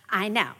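It is said in a sarcastic tone. The feelings are dismissed as unimportant. The speaker calls it wrong. "you don't say them in a sarcastic way"

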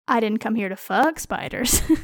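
The word "fuck" carries the strongest stress. I came for other business involving spiders. "I am here on other spider-related business"

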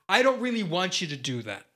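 The voice falls at the end, American style.

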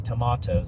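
The word is said in a British accent. The speaker calls it right. "I have a British accent. I'm from Leicester, England, and we say tomatoes"

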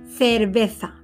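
The c sounds like the th in think. "se pronuncian en Madrid y en muchas partes de España como la TH de think"

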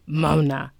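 It is said in a demonic-sounding voice.

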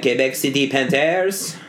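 It is said in a French-Canadian accent.

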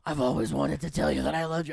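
It is said in a deep Batman voice.

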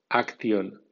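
It is read with Spanish letter sounds. "como si fuera española"

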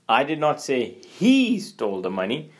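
The stress falls on the word "he". The speaker accuses someone other than him. "you're accusing, but not accusing that person"

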